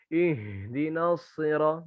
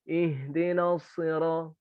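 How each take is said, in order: First: The H is pushed heavily from the chest. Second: The H is light, from the throat. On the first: The speaker calls it wrong. "Mengeluarkan huruf H dari dada. Terlalu berlebihan" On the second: The speaker calls it right. "Cukup di sini aja, di tenggorokan aja ini"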